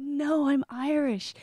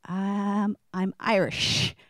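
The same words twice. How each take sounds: First: Higher and slow, firm emphatic no; insistent correction. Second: Flat deadpan correction. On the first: Correcting people in Ireland again, slow and insistent. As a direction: set them straight, patiently firm. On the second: Answering people in Ireland, slow deadpan. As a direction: state it as the obvious. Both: Retold or imitated.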